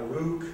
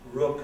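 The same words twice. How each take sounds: First: It is said with a northern English vowel. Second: It is said with a standard English vowel. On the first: This is how it was said in childhood. "I grew up with pronunciations like" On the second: This is how it is said now. "So I now say"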